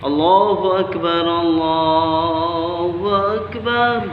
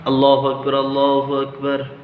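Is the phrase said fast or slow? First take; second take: slow; fast. First: It is said slowly with a pause after it. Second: It is said quickly, running straight on. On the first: This is the call to prayer. "আস্তে আস্তে থেমে থেমে দিবা, যেরকম রেস্ট নিয়ে নিয়ে দিবা" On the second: This is the call that starts the prayer. "ওইটা এক জায়গায় করতে হয়"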